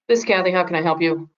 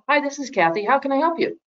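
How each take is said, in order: First: It is said without a smile, flatly. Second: It is said with a smile, cheerfully.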